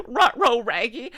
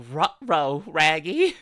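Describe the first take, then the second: First: Much higher, louder, laughing Ruh-roh; high, loud, laughing Scooby-Doo voice; squeaky Scooby-Doo. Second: Rough cartoon dog voice, leaning on Ruh-roh; Scooby-Doo's rough dog voice; Scooby-Doo impression. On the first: Retold or imitated. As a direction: squeal it like a cartoon dog. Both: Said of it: "ruh-roh raggies".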